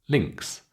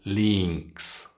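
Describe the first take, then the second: First: The vowel is clipped and very short. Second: The vowel is drawn out and long. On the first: The speaker calls it right. "It's got to be super short" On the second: The speaker calls it wrong. "they simply make it too long"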